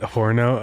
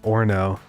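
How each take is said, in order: First: The word starts with an H sound. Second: The word starts without an H sound. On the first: The speaker calls it wrong. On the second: The speaker calls it right.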